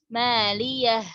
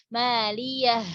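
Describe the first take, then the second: No difference in how they are said.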